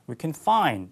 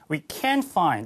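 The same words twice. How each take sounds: First: The stress falls on the last word. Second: The stress falls on the middle word. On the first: They are able to find it. "이게 만약에 긍정이었다면 그냥 we can find 이렇게 될 거예요. ... 양약강" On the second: They are unable to find it. "부정어가 되면 강세를 받습니다. 톤이 올라가고 그 다음에 목소리도 커지고"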